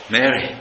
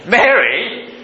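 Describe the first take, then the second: First: Said in the usual way. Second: Mary? lifted high with a rising question; Mary? asked high and rising. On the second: Shown as a demonstration. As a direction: call Mary? upward, searching and surprised. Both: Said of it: "it's a different expressions".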